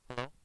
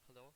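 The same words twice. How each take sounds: First: The voice is loud, close and harsh. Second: The voice is faint and barely audible. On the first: "This is me with the mic close to my face" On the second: "the second I turn on the boost, you're not gonna hear me"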